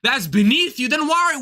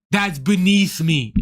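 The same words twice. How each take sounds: First: Mock disbelief climbing in pitch; incredulous echo. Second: Slow, low, mock-haughty voice; imitating the headliner. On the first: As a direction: throw the phrase back as a challenge. Throws his words back incredulously. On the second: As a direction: mimic his lofty dismissal, pitched down. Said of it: "he's like".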